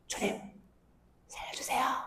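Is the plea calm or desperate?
calm. The plea is said calmly and quietly.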